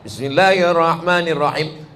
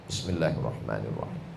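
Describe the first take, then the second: First: It is said aloud, clearly audible. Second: It is said quietly, barely audible.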